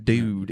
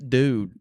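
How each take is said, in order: First: A second louder try at a neutral American Dude; no-accent retry. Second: Trying to say Dude with no Southern accent, a touch louder; a Southern comic attempting neutral American on Dude. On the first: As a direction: redo Dude, still a hint of Southern drawl. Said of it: "do that again". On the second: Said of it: "I would go like this". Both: Shown as a demonstration.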